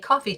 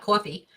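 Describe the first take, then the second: First: It is said with a general American accent. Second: It is said with a New York accent. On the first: The speaker calls it right. "I hope I'm saying that right" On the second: The speaker calls it wrong. "which is how I grew up saying it"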